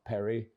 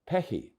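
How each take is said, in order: First: The middle consonant is an English R sound. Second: The middle consonant is a breathy H sound. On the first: The speaker calls it wrong. "it's not Perry" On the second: The speaker calls it right. "but Pecky"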